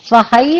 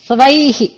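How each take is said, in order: First: The word is said as 'svahai', ending in 'hai'. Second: The word is said as 'svaihi', ending in 'hi'. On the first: The speaker calls it wrong. "స్వహై అనక్కర్లేదు" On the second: The speaker calls it right. "స్వైహి అంటే చాలు"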